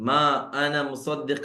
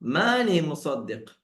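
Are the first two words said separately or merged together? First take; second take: separately; merged. First: The first two words are said as separate words. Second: The first two words merge into one word.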